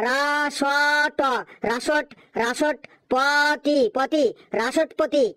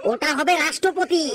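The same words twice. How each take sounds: First: রাসটপতি said without the ষ্ট cluster, slowly broken up; mispronounced রাসটপতি. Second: রাষ্ট্রপতি said clearly with the full ষ্ট্র cluster; teacher models রাষ্ট্রপতি correctly; correct pronunciation. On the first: Acted. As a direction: stumble over রাসট পতি as a child. (রাষ্ট্রপতিকে ভুল করে রাসটপতি বলা) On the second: Shown as a demonstration. (শিক্ষকের শুদ্ধ উচ্চারণ) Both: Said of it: "ওটা রাসটপতি নয়".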